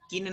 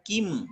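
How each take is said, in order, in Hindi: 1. यह शब्द n ध्वनि से खत्म होता है। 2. यह शब्द m ध्वनि से खत्म होता है। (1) "किन नहीं होगा" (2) "इसका उच्चारण हम माँ में करेंगे"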